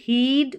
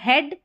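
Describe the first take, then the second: First: The vowel is a long 'ee' sound. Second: The vowel is a short 'eh' sound. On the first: The speaker calls it wrong. "इसको सिर्फ बड़ी के रूप में ही याद रखेंगे तो गलत पढ़ेंगे" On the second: The speaker calls it right. "ये वाला ए साउंड आ रहा है"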